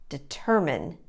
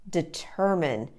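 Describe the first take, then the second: Both takes have the same delivery.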